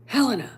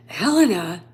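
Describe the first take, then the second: First: Said in the usual way. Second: Helena said louder and held, with heavy weight; the name Helena landed hard and loud; dramatic reveal. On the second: Shown as a demonstration. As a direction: announce Helena like a big reveal.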